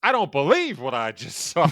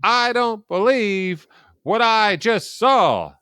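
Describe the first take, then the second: First: Pastor-like reiteration, pitched up; preacherly restatement of a sportscaster's call; Jack Buck. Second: Big home-run call, slow, high and loud; drawn-out stunned announcer cry; Jack Buck. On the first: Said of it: "almost like a pastor kind of way". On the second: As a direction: belt it out like a sportscaster, word by word. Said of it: "he calls it the Gibson home run". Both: Retold or imitated.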